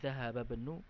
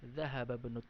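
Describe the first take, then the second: First: The vowel at the start of 'ibnu' is dropped. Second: The vowel at the start of 'ibnu' is dropped.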